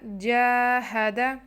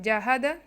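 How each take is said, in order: First: Only the first vowel is held long. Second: No vowel is held long. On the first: The speaker calls it right. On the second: The speaker calls it wrong.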